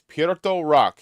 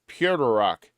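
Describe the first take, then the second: First: The first word sounds like 'Puerto' in Puerto Rico. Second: The first word sounds like 'pewter'. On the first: The speaker calls it right. "like Puerto Rico" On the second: The speaker calls it wrong. "They all say Pewter Rock"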